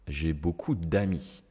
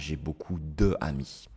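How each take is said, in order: First: The vowel of de is dropped and joined on. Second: The vowel of de is kept before amis. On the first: The speaker calls it right. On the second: The speaker calls it wrong.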